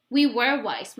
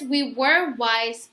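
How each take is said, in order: First: Said in the usual way. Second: Very slow, heavy WE WERE WISE; mother admitting the move was hard, slowly; sad, slow. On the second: Shown as a demonstration. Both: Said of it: "So Mama says".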